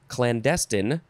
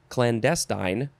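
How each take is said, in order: The two takes are said the same way.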